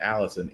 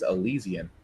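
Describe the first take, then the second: First: The name sounds like the name Allison. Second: The name sounds like the word Elysian. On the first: The speaker calls it wrong. "I kept on saying Allison" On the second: The speaker calls it right. "It's Elysian"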